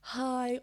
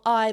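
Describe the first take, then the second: First: The vowel starts with a breathy h sound. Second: The vowel starts with a sharp glottal catch. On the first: "doing aspirate" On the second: "I being a glottal"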